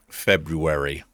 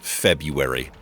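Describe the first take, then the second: First: The first R is clearly pronounced. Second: The first R is left silent. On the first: "I never hear anybody say it like that. With the R" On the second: "Every person I have ever known has says February"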